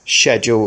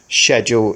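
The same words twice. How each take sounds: First: It is said with a British pronunciation. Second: It is said with a British pronunciation.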